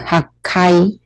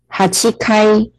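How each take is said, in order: First: The middle 'chi' syllable is dropped. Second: The middle has a full 'chi' syllable. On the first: "读音没有那么多音节" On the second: "它有两个读音hachikai 或者是hakai"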